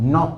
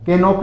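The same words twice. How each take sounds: First: नॉक said as nok, k silent; correct pronunciation. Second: के नॉक with the k sounded first; mock the mistake, a clear k in के नॉक; wrong pronunciation. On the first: Teacher corrects students, नॉक with silent k. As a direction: begin नॉक on the n. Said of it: "नॉक होता है". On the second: Teacher imitates students sounding the k in के नॉक. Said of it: "के नॉक नहीं होता है". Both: Shown as a demonstration.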